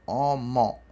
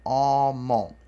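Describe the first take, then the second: No difference in how they are said.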